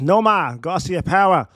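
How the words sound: The name is said in a Boston accent. The speaker calls it right. "you got to put the Boston accent in there when you say it"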